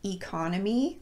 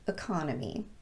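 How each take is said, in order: First: The first vowel is a full E. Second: The first vowel is a schwa.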